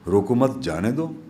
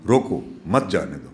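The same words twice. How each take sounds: First: روکو مت said as one phrase, rising on مت, then a break before جانے دو; روکو مت rising, slight pause, then جانے دو; pause after مت. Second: روکو hit hard and falling, then a break before مت جانے دو; روکو stressed and cut off, then مت جانے دو; pause after روکو. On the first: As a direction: stop after مت so it means don't stop him, let him go. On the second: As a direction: stop after روکو so it means stop him, don't let him go. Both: Shown as a demonstration. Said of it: "کہاں رکوں، کہاں مطلب بدل گیا".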